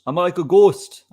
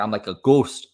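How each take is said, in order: First: Louder and higher, punching the joke; louder, higher repeat. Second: Said in the usual way. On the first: Real, not acted. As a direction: say it again, louder and higher for the laugh. Repeats the line for effect.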